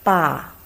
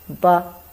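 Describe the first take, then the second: First: It is said with the fourth tone. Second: It is said lightly, with the neutral tone. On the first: "Fourth tongue" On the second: "without tongue, we pronounce as ba. It's very light"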